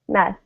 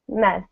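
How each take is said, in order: First: The vowel is a short eh sound. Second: The same.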